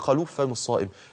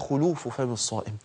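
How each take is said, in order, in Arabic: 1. الكلمة الأولى تبدأ بحركة 'a'. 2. الكلمة الأولى تبدأ بحركة 'u'. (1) "ده غلط وما ينفعش اقول" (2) "الضبط الصحيح"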